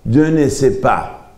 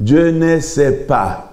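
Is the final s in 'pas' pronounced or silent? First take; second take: silent; silent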